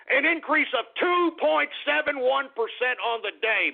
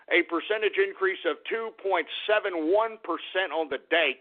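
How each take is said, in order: First: High-pitched, jubilant repeat of the number; thrilled market hype, pitched way up; excited crowing. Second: Said in the usual way. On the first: Real, not acted. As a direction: crow the figure like a big win. Gleefully repeats the figure.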